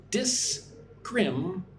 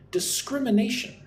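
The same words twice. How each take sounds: First: "Discrimination" slowly broken into five separate syllables. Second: "Discrimination" as one word, higher, with "scrim" stressed; second-syllable stress. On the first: Teacher asking learners to listen and repeat, syllable by syllable. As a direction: sound out "Discrimination" with gaps between syllables. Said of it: "Listen and repeat". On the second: Teacher repeating the whole word for learners, second syllable stressed. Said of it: "Put the stress on the second syllable". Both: Shown as a demonstration.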